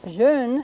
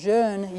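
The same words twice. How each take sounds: First: Jeune with a tighter rounded "eu", held; French front rounded vowel. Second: Put-on jeune with an opener "eu", as in French for young; lower rounded vowel. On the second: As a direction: let the rounded vowel of jeune drop more open. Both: Shown as a demonstration. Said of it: "jeune is a little bit lower".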